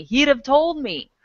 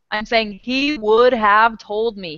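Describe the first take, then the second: First: "He'd have" run together quickly as "heed-uv"; relaxed contracted "He'd have"; contracted form. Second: "would" said slowly and fully, not contracted; slow, every word clear, "would have"; full form spelled out. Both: Shown as a demonstration.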